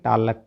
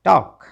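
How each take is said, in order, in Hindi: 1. L ध्वनि का उच्चारण किया जाता है। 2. L ध्वनि मौन रहती है। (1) "ना ना ना ना ना" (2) "क्योंकि एल तो साइलेंट है"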